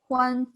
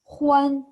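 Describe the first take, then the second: First: It is short and light, with no tone. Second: It is held on a high level pitch. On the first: It is the second syllable of a word. "The second character 欢 is neutral tone" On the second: It stands alone as a separate character. "we say 欢 the first tone"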